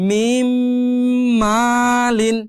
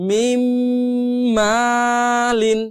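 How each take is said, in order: The two takes are said the same way.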